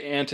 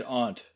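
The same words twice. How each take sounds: First: "aunt" pronounced like "ant"; usual short-a pronunciation. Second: "aunt" with a broad ah, "ahnt"; alternate broad-vowel pronunciation. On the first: Co-host agrees on the usual form, "aunt" as "ant". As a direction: say "aunt" with the a of "cat". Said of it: "but I have said aunt". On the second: Co-host admits the other form, "aunt" as "ahnt". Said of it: "say one versus the other". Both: Shown as a demonstration.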